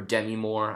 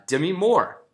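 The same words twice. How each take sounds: First: Demi Moore with the weight on Demi, Moore light; Demi Moore, second try. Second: Demi Moore with Moore stressed, slow and loud; Demi Moore, first try. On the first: Vlogger trying the name again, now stressing Demi. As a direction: lead with Demi, then let Moore drop. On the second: Vlogger unsure how to say the actress's name, stressing Moore. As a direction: lean hard on Moore, drawing it out. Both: Shown as a demonstration. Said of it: "I don't know how to say it".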